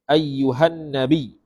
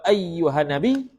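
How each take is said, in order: First: The n sound is held and doubled. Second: The n sound is short and single. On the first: The speaker calls it right. "tasdid pada an-nabi" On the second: The speaker calls it wrong. "tak sah. Kerana tidak ada tasdid pada nun"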